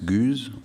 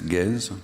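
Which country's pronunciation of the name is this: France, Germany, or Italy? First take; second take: Germany; France. First: The name is said the German way. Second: The name is said the French way. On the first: "In Germany, it's Guze" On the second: "In France, it's Gez"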